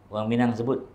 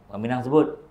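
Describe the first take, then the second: Both takes have the same delivery.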